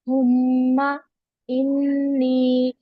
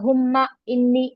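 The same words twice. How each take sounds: First: The M and N are held with nasal hum. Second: The M and N are short without nasal hum. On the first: The speaker calls it right. "थोड़ा सा गुन्ना करके पढ़ेंगे" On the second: The speaker calls it wrong. "ऐसे नहीं पढ़ना"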